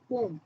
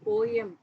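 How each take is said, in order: First: The word is said as one syllable. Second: The word is said with two syllables. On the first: The speaker calls it right. "போம் அப்படின்னு நினச்சி pronounce பண்ணணும்" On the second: The speaker calls it wrong. "போயம்னு pronounce பண்ணக்கூடாது"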